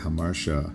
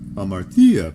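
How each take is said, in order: First: It is said in a modern Greek way. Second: It is said in a classical Greek way, more intoned. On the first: "modern Greek speakers often say hamartia" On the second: "the classical Greek pronunciation would have a more intoned hamartia"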